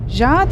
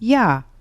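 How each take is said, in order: First: The word begins with a 'zh' sound. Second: The word begins with a 'y' sound. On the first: The speaker calls it wrong. "Ja diye mi okuyorum? Hayır" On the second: The speaker calls it right. "Y sesini duyuyorsunuz"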